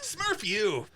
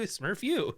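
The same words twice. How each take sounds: First: It is said in a hostile, insulting tone. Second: It is said in a warm, grateful tone. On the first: An insult. "Fuck you" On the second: Thank you. "It could be mean thank you"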